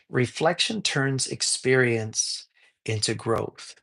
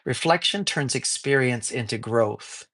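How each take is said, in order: First: The phrase is spoken slowly and deliberately. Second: The phrase is spoken at a normal, quicker pace.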